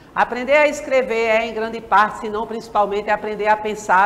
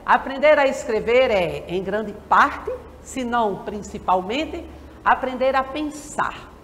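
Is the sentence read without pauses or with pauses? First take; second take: without pauses; with pauses. First: It is read straight through without pauses. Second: It is read with pauses between the phrases. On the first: The text has no punctuation. The speaker calls it wrong. "para ler sem pontuação eu leria" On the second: The text is punctuated. The speaker calls it right. "Só para dar uma ideia"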